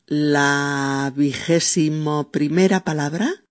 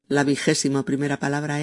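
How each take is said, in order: First: Slow, drawn-out "la vigésimo primera palabra"; slow announcing. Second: Fast, brisk "la vigésimo primera palabra es"; quick restatement. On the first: Presenter slowly announcing the next word. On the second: Presenter quickly repeating the word number. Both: Shown as a demonstration.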